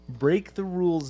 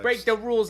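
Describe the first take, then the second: First: It is said in an ordinary, unaffected accent. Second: It is said in an exaggerated New York accent.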